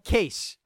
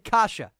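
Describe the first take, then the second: First: The name sounds like the word "case". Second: The name is said with two syllables, "kah-sah". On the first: The speaker calls it wrong. "Not Case" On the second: The speaker calls it right. "Andre Kasha. I believe I'm saying that right"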